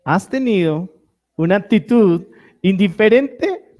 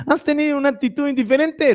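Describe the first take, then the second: First: Said in the usual way. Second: Playful high question. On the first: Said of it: "tienen que reírse". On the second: Shown as a demonstration. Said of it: "Ah, bueno, tienen que reírse".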